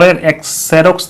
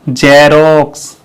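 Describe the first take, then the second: First: The word begins with an 'eks' sound. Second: The word begins with a 'z' sound. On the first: The speaker calls it wrong. "तो नहीं बोलते हैं" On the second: The speaker calls it right. "एक्स से यहाँ ज होगा"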